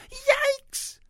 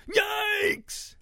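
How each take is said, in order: First: Very high, loud startled yelp; shriek. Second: High, loud piggy shriek; shrieking snouts. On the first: Ruby comes nose to nose with three snouts, shrieking. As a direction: shriek it out at the top of your range. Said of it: "shrieked Ruby". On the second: Startled pig snouts shriek back at Ruby, high and loud. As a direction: shriek back in a put-on creature voice. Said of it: "shrieked the snouts". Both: A narrator's reading.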